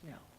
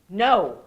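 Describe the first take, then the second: First: The word is said softly, without force. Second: The word is said harshly, with force. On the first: The refusal simply states what is on one's mind. The speaker calls it right. "doesn't have to have all that force" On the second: The refusal comes with unpleasant, heavy energy. The speaker calls it wrong. "we have to say no in a disagreeable way"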